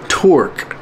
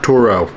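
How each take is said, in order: First: The name ends with a K sound. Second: The name ends with an O sound. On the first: The speaker calls it right. "I'm saying it right this time" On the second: The speaker calls it wrong. "Not Toro"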